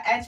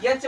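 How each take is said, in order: First: "एच" starting straight on the vowel; correct pronunciation. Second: "यच" with a y sound in front; wrong student pronunciation. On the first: Teacher showing how H should be read, correct pronunciation. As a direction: say "एच" with no y in front. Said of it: "एच पढ़ा जाएगा". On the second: Teacher showing how students misread the letter H, wrong pronunciation. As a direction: say "यच" as yech, y-glide first. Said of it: "pronunciation बच्चे करते हैं". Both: Shown as a demonstration.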